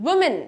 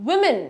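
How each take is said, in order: No difference in how they are said.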